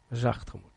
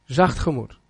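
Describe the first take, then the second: First: Gently, much softer on zacht gemoed; soft spoken. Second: Said in the usual way. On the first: Shown as a demonstration. Preacher to congregation, showing a soft heart, softly. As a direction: let the words fall soft, as they say. Niet hard.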